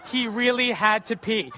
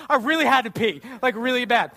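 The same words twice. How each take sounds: First: Slow, laughing readout of "He really had to pee"; amused, slow reading of the cop's note. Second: Sheepish confession. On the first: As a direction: chuckle through it as you read it out slowly. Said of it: "she writes this down on a piece of paper". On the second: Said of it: "I was like". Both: Retold or imitated.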